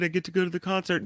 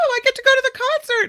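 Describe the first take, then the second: First: The tone is flat and unexcited. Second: The tone is lively and excited. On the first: The speaker calls it wrong. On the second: The speaker calls it right.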